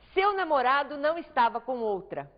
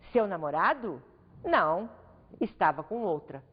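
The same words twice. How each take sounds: First: It is one flat, firm statement falling at the end. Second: It rises after the first phrase, then pauses and falls. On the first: The boyfriend was not with another woman. "uma entonação afirmativa, categórica" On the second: The boyfriend was with another woman. "a situação muda de sentido conforme a pontuação"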